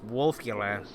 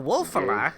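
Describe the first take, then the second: First: The middle vowel is a clear u sound. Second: The middle vowel lacks the u sound. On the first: The speaker calls it right. "people mispronounce Wolfula pretty often" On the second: The speaker calls it wrong. "a little child attempting pr- to pronounce the name"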